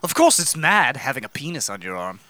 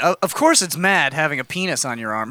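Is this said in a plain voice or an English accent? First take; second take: English accent; plain. First: It is said in a put-on English accent. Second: It is said in the speaker's normal accent. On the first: The speaker calls it right. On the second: The speaker calls it wrong.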